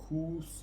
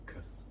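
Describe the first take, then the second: First: The vowel is rounded with the lips pushed out. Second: The vowel is a relaxed, neutral schwa sound. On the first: The speaker calls it wrong. "with the lips out together" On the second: The speaker calls it right. "very relaxed with a schwa sound"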